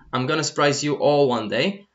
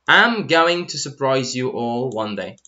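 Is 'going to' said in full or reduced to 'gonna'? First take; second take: reduced; full. First: Going to is reduced to gonna, spoken quickly. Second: Going to is said in full, each word clear. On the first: It is casual, informal speech. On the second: It is standard, neutral speech.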